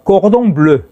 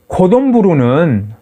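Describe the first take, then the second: First: It is said with French-style sounds, no extra vowels. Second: It is said with Japanese-style sounds and extra vowels. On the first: "꼬동블루라는 불어" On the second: "불어의 일본식 발음입니다"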